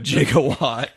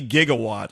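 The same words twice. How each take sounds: First: The word begins with a J sound. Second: The word begins with a hard G sound. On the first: "they spelled it like J I G A" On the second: "it should be gigawatt, like a gigabyte"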